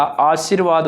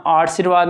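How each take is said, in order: First: आशीर्वाद as "aa-sheer-vaad"; correct form shown. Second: आशीर्वाद with r moved early, "aar-shi-vaad"; wrong form shown. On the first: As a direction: put the r after "shee" in आशीर्वाद. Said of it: "आशीर्वाद होता है". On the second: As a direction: say आशीर्वाद with the r before the sh. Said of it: "आशीर्वाद नहीं होता". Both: Shown as a demonstration.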